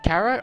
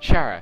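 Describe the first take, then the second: First: The name begins with a hard k sound. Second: The name begins with a ch sound. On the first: "spelled like Kara as in character" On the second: "or Chara"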